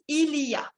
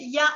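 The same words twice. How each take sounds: First: It is said in full, every syllable clear. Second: It is shortened to a single quick syllable. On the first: This is careful or written-style speech. "si quieren hablarlo de manera más, digamos, pronunciada" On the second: This is casual talk between fluent speakers. "on a tendance à ne pas prononcer le il y a juste dire ya"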